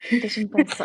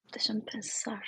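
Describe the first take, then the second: First: Said in the usual way. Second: Whispered to herself. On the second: Real, not acted. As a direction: hush it while thinking. Thinking aloud, hushed.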